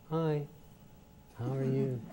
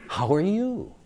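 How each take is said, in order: First: The greeting sounds held back and tightly controlled. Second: The greeting sounds free, full and warmly expressive.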